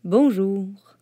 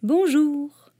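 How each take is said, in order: First: Switchman voice. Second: Put-on a high, childlike "Bonjour"; the little prince greeting the switchman, high and childlike. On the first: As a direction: answer like a working man. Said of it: "dit l'aiguilleur". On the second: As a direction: greet like a small boy. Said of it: "dit le petit prince". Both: A narrator's reading.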